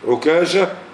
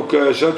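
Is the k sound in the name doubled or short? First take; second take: doubled; short. First: The k sound is doubled and held longer. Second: The k sound is short and single. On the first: "والتثقيل" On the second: "بالتخفيف"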